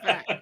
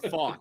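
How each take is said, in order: First: The vowel sounds like the one in 'fat'. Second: The vowel sounds like the one in 'fought'. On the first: The speaker calls it wrong. "I'm gonna still call him Brandon Fat" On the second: The speaker calls it right. "instead of Fought"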